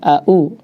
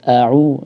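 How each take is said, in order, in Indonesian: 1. Awalnya hamzah biasa. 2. Awalnya ain yang jelas dari tenggorokan. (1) "Jangan sampai au" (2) "harus jelas au"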